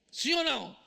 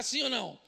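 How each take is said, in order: First: "Sim ou não?" pushed louder, demanding an answer; louder repeat. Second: Said in the usual way. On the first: Shown as a demonstration. Pastor demanding an answer from the congregation, louder.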